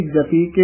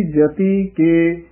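First: ਜਤੀ ਕੇ joined as one word; no gap between ਜਤੀ and ਕੇ; run together. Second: Slow ਜਤੀ ਕੇ as two words; separated words. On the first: Teacher imitates common mistake, ਜਤੀ ਕੇ run together. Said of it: "ਇਕੱਠਾ ਕਹਿ ਜਾਂਦੇ ਹਨ". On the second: Teacher shows correct reading, ਜਤੀ and ਕੇ separated. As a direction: hold ਜਤੀ, then set ਕੇ apart. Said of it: "ਵੱਖਰਾ ਹੀ ਉਚਾਰਨ ਕਰਨਾ ਹੈ". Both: Shown as a demonstration.

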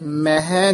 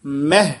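First: ਮਹਿ drawn into two syllables, "meh-hai"; wrong pronunciation. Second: ਮਹਿ as one syllable, "meh"; correct pronunciation. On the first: Teacher shows learners the reading to avoid, ਮਹਿ as "meh-hai". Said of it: "ਮਹਿ ਨਹੀਂ ਕਹਿਣਾ". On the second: Teacher shows learners the word to use, ਮਹਿ as "meh". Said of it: "ਮਹਿ ਸ਼ਬਦ ਉਚਾਰਨ ਕਰਨਾ ਹੈ". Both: Shown as a demonstration.

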